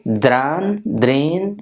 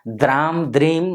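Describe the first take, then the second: First: The syllables end with a nasal n sound. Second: The syllables end with a closed m sound. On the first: The speaker calls it right. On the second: The speaker calls it wrong.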